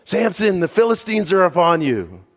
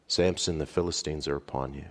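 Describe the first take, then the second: First: High, loud yell of alarm; a woman yelling a false alarm to her husband. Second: Softer, lower, falling warning; the last warning before his downfall, subdued; hushed final call. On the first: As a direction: shout the warning across the room. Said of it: "she yells". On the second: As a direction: let the last call fall quiet and heavy. Final call, hair cut. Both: Acted.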